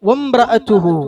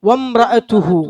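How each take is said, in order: The two takes are said the same way.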